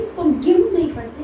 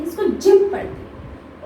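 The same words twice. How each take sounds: First: गिम said with a hard g, as the wrong way; teacher showing the wrong sound; wrong reading. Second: Teacher giving the correct sound; right reading. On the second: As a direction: give the correct जिम. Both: Shown as a demonstration. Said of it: "इसको हम क्या पढ़ते हैं".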